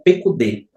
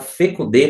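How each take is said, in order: First: The word begins with a P sound. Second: The word begins with an F sound. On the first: This is the basic reading of the word. "a maneira de leitura seria pecudê" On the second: This form appears in the text for grammatical reasons. "Aqui está fecudê porque a palavra ela aparece dessa maneira no texto"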